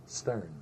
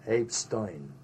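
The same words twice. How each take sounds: First: Said in the usual way. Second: Stein said as "Stoyn"; Brooklyn pronunciation. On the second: Retold or imitated. Telling the soldier's name, Stein said Brooklyn-style as "Stoyn". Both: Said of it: "From Brooklyn, Stein".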